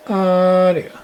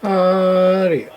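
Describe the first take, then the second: No difference in how they are said.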